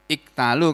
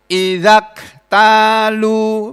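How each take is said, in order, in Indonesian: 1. Diucapkan sendiri, dimulai dengan bunyi i. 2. Disambung dengan idza, bunyi i pertama dihilangkan. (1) "kalau dibaca sendiri" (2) "kalau digabung"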